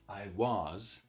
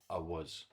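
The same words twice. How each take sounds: First: The word 'was' has a full, clear vowel. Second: The word 'was' has a weak schwa vowel. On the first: "instead of saying" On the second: "we can simply say I was. So there's a schwa here"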